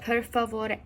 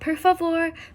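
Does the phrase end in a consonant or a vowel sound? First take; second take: vowel; consonant. First: The phrase ends on an e vowel. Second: The phrase ends on an r sound. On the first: The speaker calls it right. "but per favore" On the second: The speaker calls it wrong. "Not per favor"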